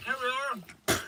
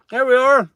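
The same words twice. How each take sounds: First: High and soft, half to himself; soft high murmur. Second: High, loud announcement; loud excited call. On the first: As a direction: let it fall away quietly. Third take, very soft. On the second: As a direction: call it out with a lift. First take, loud. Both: Real, not acted.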